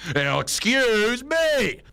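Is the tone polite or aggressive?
aggressive. It is said in an aggressive, annoyed tone.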